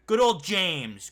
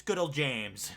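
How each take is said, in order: First: Mock fond emphasis. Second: Said in the usual way. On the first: Real, not acted.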